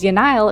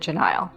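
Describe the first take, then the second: First: The name begins with a Y sound. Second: The name begins with a J sound. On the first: The speaker calls it wrong. "I pronounced her name with the J like a Y" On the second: The speaker calls it right. "I'm trying to retrain my brain to call her Janile"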